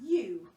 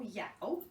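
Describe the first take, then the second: First: The vowel sounds like the one in 'too'. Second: The vowel sounds like the one in 'cow'. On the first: The speaker calls it right. "our tricky word of the day is you" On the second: The speaker calls it wrong. "But we don't say y, ow, yow"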